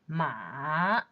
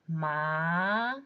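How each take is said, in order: First: The pitch dips low and then rises. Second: The pitch rises from mid to high. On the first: "Third tone" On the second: "And in second tone"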